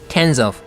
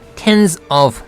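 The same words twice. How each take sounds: First: The two words are linked together. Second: The two words are said separately. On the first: The speaker calls it right. "붙여가지고 하죠" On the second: The speaker calls it wrong. "따로 떼어서 하는 게 아니라"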